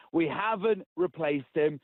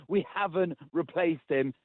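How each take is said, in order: Both takes have the same delivery.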